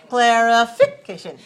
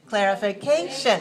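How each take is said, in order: First: The stress is on the third syllable. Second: The stress is on the fourth syllable. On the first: "If it's three, it's like this" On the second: "If it's four, it's like this"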